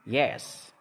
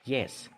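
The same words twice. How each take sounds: First: The word is said long and drawn out. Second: The word is said short and clipped. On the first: The speaker is strongly emotionally involved. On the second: The speaker is uninterested and unemotional.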